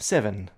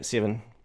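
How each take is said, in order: First: The first vowel is an open British-style eh. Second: The first vowel is a raised New Zealand-style vowel. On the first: "like eh in seven" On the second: "in New Zealand, we always go seven"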